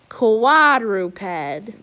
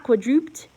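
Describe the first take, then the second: First: The stress is on the first syllable. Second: The stress is not on the first syllable. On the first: The speaker calls it right. "we got to punch it on the first" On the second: The speaker calls it wrong. "it's not quadruped"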